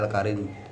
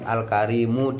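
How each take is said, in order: First: The word ends on a bare final m. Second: The word ends with a final u vowel. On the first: The reader stops at this word. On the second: The reading continues without a stop.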